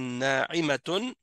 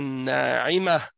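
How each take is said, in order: First: The word ends in a t sound, flowing on. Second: The word ends in an h sound, then stops. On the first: The reciter carries on into the next verse without stopping. "c'est si on continue sans arrêter" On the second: The reciter stops at the end of the verse. "si on s'arrête, à chaque fois, on va le prononcer comme un ha"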